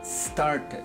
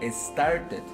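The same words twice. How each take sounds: First: The word begins directly with the s sound. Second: An extra vowel sound comes before the s. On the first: The speaker calls it right. "Decimos started" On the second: The speaker calls it wrong. "No digo started. No le agregamos la E aquí"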